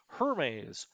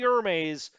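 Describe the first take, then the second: First: The name is said with a British pronunciation. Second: The name is said with a French pronunciation. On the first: The speaker calls it right. "It is British" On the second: The speaker calls it wrong. "not the Hermes. ... do not pronounce this like the French name"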